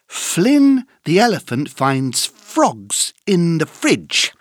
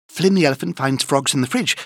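First: It is said at a slow pace. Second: It is said at a very fast pace.

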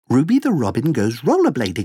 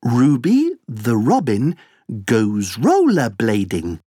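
First: The sentence is said at a fast pace. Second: The sentence is said at a slow pace.

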